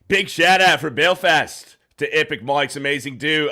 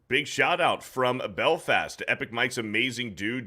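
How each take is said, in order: First: It is read in an Australian-sounding accent. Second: It is read in the speaker's ordinary accent.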